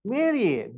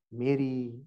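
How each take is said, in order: First: Said in the usual way. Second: Mary said low and soft, lingering; tender call. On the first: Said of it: "call Mary in a particular tone". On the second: Shown as a demonstration. Pastor shows how Jesus called Mary, soft and lower. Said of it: "He used to call Mary in a particular tone".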